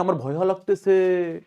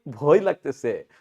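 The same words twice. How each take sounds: First: Slow, with ভয় stretched into "bhoya"; wrong-form demo. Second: ভয় as "bhoy", closed on the glide, lower; lower, falling, with ভয় ending in y; correct-form demo. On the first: Teacher shows what nobody ever says, ভয় said as bhoya. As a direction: add an aa to ভয় and draw out the sentence. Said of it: "কেউ ভুলো কোনদিন বলছি না". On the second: Teacher answers what we say, ভয় as one syllable. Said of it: "কি বলি". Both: Shown as a demonstration.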